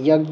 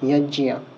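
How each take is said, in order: First: The middle consonant is a g sound. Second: The middle consonant is a j sound. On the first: The speaker calls it wrong. "যেটাকে আমরা যজ্ঞ বলি" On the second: The speaker calls it right. "সেটাকে এখানে বলতে হবে যজ্ঞিয়া"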